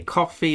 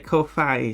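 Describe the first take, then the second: First: It sounds like the drink coffee. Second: It ends in 'fye', like hi-fi. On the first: It is a pun on buying someone coffee. "some say coffee" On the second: It is modeled on hi-fi and Wi-Fi. "comes from hi-fi and Wi-Fi"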